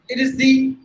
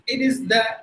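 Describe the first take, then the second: First: The word ends in a long ee sound. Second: The word ends in a short uh sound. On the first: The next word begins with a vowel. "Before vowels" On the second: The next word begins with a consonant. "Before consonants"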